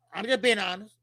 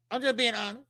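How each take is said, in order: Both takes have the same delivery.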